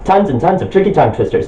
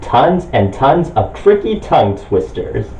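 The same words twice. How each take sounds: First: It is said very fast. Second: It is said at a normal speed.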